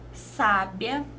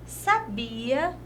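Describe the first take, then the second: First: The stress is on the first syllable. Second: The stress is on the middle syllable. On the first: It means wise. "Nós temos o acento aqui no sa" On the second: It means knew. "tem mais tonicidade no bi"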